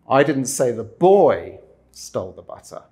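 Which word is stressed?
boy. The stress is on "boy".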